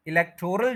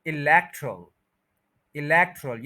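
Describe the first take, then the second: First: इलेक्टोरल with a full long 'tor'; wrong pronunciation. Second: इलेक्टरल as i-LEK-trul, second syllable stressed; corrected pronunciation. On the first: Teacher rejecting the usual form, इलेक्टोरल with full o. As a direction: voice the o in इलेक्टोरल, e-lek-TOR-al. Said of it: "जो बोला गया है वो गलत है". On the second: Teacher giving the right form, इलेक्टरल with reduced ending. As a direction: drop the o and hit LEK in इलेक्टरल. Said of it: "second syllable पे stress है". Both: Shown as a demonstration.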